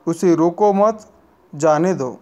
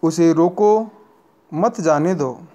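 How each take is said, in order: First: The pause comes right after the word mat. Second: The pause comes right after the word roko. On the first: The listener is told to let the person go. "दूसरा वाक्य नहीं रोकने के लिए कहता है" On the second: The listener is told to stop the person. "प्रथम वाक्य रोकने के लिए कहता है"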